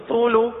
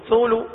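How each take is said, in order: No difference in how they are said.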